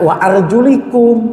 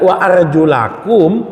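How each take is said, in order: First: The vowel after arjul is an i sound. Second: The vowel after arjul is an a sound. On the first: The feet are only to be wiped. "Kalau dibaca kasroh, kakinya diusap" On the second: The feet are to be washed. "Kalau dibaca fathah, kakinya dibasuh"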